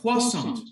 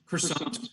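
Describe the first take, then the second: First: Croissant said the French way, kwa-son; French pronunciation. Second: Said in the usual way. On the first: Shown as a demonstration. Croissant lawyer showing the French pronunciation, lightly done. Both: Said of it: "however you want".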